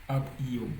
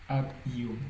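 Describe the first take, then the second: Both takes have the same delivery.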